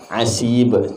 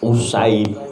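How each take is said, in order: First: The name begins with an 'a' vowel. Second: The name begins with a 'u' vowel. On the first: The speaker calls it right. "Fatah ain kasroh sin" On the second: The speaker calls it wrong. "Kalau dhammah tasghir berarti. Usaib harusnya gitu"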